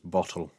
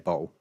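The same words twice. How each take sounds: First: The middle t is clearly pronounced. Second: The middle t is dropped. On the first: "the correct pronunciation for it is bottle" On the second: "we don't often cross our T's, so we say bottle"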